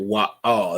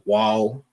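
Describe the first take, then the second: First: It is said as two separate sounds. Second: It is said as one joined syllable. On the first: The speaker calls it right. "It misses the the two separate sounds" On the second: The speaker calls it wrong. "that looks more like wall"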